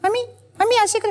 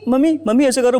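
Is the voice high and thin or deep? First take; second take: high thin; deep. First: A high, thin child's voice is used. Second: A deep, bass grown man's voice is used.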